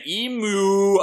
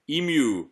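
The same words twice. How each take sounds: First: EMU drawn out high as "ee-mooo"; emu said "ee-moo". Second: Emu with a y glide, "ee-myoo"; British emu, "ee-myoo". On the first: Retold or imitated. Host echoing a viewer's way of saying it, emu as "ee-moo". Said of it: "Misty Eye is saying". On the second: Shown as a demonstration. Host showing her British way, emu as "ee-myoo". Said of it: "saying it like a British per-, person".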